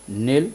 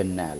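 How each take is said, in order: First: نیل with an "ay" vowel, like "nail"; first variant of نیل. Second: نیل with an open "a", like "nal"; second variant of نیل. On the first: Teacher offering either pronunciation, نیل said as "nayl". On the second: Teacher offering either pronunciation, نیل said as open "nael". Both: Shown as a demonstration. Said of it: "دونوں کو نیل بھی بول سکتے ہیں".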